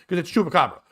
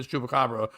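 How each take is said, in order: First: Chupacabra said the Boston way, no r; imitating Boston accent on Chupacabra. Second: Said in the usual way. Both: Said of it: "With a Boston accent".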